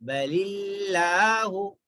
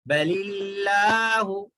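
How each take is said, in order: Both takes have the same delivery.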